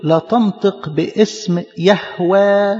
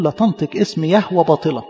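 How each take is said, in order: First: يهوه drawn out very slowly, each word weighed; "لا تنطق باسم يهوه" spelled out word by word, very slowly; solemn quoted commandment. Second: Said in the usual way. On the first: Shown as a demonstration. Preacher quoting the commandment to the congregation, very slow and solemn. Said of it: "في وصية عند إسرائيل بتقول". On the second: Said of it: "فاليهود قالوا".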